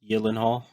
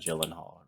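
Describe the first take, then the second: First: The name is pronounced the Swedish way. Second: The name is pronounced the common English way. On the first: This is the technically proper form of the name. "it's a Swedish name, so technically" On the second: This is the form most people use. "he does just go by Gyllenhaal, really"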